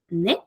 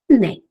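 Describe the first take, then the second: First: The word ends with a rising, questioning tune. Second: The word ends with a level or falling tune. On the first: The speaker wants it repeated. "lo dices con más duda... Con el sonido así como que de pregunta" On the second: The speaker agrees with what was said. "Nosotros respondemos"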